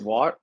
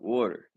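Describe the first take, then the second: First: It has a standard open first vowel. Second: It sounds like 'wooder' with a rounded vowel. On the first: The speaker calls it wrong. "How do you say it? ... It, it don't even sound right" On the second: The speaker calls it right. "In Philly, we say water. W O O D E R"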